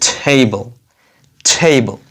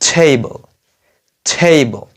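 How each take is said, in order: No difference in how they are said.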